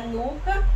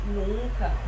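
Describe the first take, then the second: First: "nuca" with a pure oral U; oral vowel NUCA. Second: "nunca" with a nasalised U; nasal NUNCA. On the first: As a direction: say "nuca" clearly without nasalising the U. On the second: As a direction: let "nun" in "nunca" ring through the nose. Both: Shown as a demonstration.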